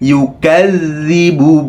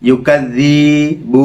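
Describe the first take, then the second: First: No sound in the word is drawn out. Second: A sound in the word is drawn out. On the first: The speaker calls it right. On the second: The speaker calls it wrong.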